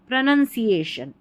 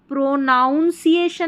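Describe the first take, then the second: First: The second syllable sounds like 'nun'. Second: The second syllable sounds like 'noun'. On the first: The speaker calls it right. "इसका सही उच्चारण" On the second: The speaker calls it wrong. "यहां पर प्रोनाउंसिएशन नहीं पढ़ेंगे"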